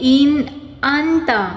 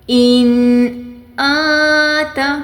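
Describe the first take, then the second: First: The second n sound is pronounced clearly. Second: The second n sound is hidden and nasalized. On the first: The speaker calls it wrong. "ये आपका हर्फ गलत है" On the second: The speaker calls it right. "इसमें आवाज़ को छुपाना है। इन आता ऐसे है"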